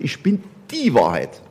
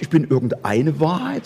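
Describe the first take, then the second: First: Die in Ich bin die Wahrheit slow and falling; slow down and lean on die; firm slow die Wahrheit; stress on die. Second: Said in the usual way. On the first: Shown as a demonstration. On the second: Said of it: "Er sagt nicht".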